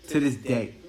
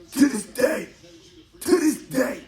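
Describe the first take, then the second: First: Said in the usual way. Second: "To this day" cried out much higher and louder; exasperated outburst. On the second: Real, not acted. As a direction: blow up on "To this day", near-shouting in disbelief. Builds emphasis by repeating.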